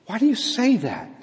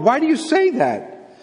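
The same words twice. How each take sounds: First: Higher-pitched question without force; gentle correction. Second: High-pitched, forceful questioning; exasperated challenge. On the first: God correcting the exiles without destroying them, gentle. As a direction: ask it as a mild rebuke. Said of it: "the Lord's correction to them and to us, it's not destructive". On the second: Preacher voicing God challenging the exiles, exasperated. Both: Acted.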